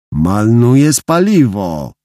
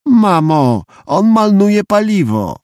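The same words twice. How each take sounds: First: Put-on slow, drawn-out little-kid remark; child pointing out. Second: Put-on high, slow whine of a little boy; tattling child. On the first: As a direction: chide your brother slowly, with a childish l for r. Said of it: "zwróciłem mu uwagę". (powolna dziecięca uwaga) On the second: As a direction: whine to mum about your brother, drawing it out. Child complains to mum about brother. (wysokie, przeciągłe skarżenie dziecka) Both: A narrator's reading.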